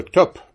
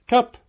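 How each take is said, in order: First: Loud clipped devil's agreement, a touch of gruffness; devil's topp. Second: Much higher, bright answering topp; journeyman's topp. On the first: Devil closes the bargain with the journeyman, loud. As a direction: slam the deal shut, loud. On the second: Journeyman echoes the devil's deal, high and pleased. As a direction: toss the word back up high and cheeky. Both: Acted.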